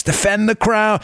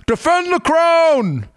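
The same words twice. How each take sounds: First: Said in the usual way. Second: "Defend the crown" much higher and slow in a hammed-up posh English accent; mock authoritative English accent. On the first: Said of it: "You need to say it in". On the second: Shown as a demonstration. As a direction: proclaim "Defend the crown" like a pompous English royal, in a bad English accent. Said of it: "authoritative, you know, horrible English accent".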